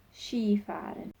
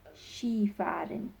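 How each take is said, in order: Both takes have the same delivery.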